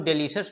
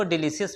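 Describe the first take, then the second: First: डिलीशियस with a sh sound, "de-li-shus"; डिलीशियस pronounced the standard sh way; usual pronunciation. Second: डिलीशियस spelt out as "di-li-si-yas"; डिलीशियस in the alternative s sound; alternative pronunciation. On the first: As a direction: say डिलीशियस as three syllables, de-li-shus. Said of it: "इसका pronunciation जो होता है". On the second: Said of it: "ऐसे आप इसको डिलीशियस भी बोल सकते हो". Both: Shown as a demonstration.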